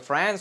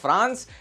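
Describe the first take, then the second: First: It is said with an English accent. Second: It is said with a Hindi accent. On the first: "अगर अंग्रेजी accent में बोला जाए तो बोलेंगे" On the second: "अपनी भाषा में बोले तो बोलेंगे"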